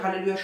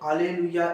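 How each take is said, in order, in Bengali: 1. শব্দটি 'h' ধ্বনি দিয়ে শুরু হয়। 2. শব্দটি সরাসরি একটি স্বরবর্ণ দিয়ে শুরু হয়।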